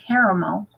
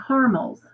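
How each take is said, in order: First: Caramel said as CARE-uh-mel; caramel in three syllables, CARE-uh-mel; caramel, full middle syllable. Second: Caramels said as CAR-mulz; caramels as carmels. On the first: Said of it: "most of the time I say caramel". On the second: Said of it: "I call them caramels". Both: Shown as a demonstration.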